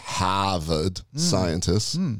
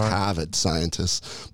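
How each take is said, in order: First: Harvard is said in a put-on local accent. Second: Harvard is said in a plain, ordinary accent.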